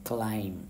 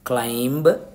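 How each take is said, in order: First: The word ends on m with no b. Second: The word ends with a b after m. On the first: The speaker calls it right. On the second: The speaker calls it wrong.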